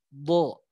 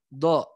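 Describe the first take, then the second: First: The consonant sounds heavy, tongue raised. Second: The consonant sounds light, tongue not raised. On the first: The speaker calls it right. "Tapi ini yang dinaikin ya. lebih tebal" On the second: The speaker calls it wrong. "Ini do ya. Nempel makrosnya benar tapi nggak naik jadinya do"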